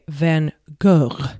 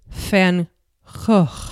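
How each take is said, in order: First: The name is pronounced the French way. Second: The name is pronounced the Dutch way. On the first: "if it was in French, I would say" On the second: "if I was to pronounce it correctly, in Dutch it would be"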